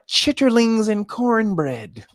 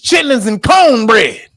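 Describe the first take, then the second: First: The first word is said in its long form. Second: The first word is said in its short form. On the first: This is how outsiders say it. The speaker calls it wrong. "not chitterlings and cornbread" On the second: This is how the speaker's own community says it. The speaker calls it right. "It's chitlins and cornbread"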